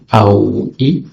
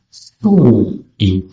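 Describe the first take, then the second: First: The word is said with an 'a' vowel. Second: The word is said with a 'u' vowel. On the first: "dengan fathah" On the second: "dengan dhammah"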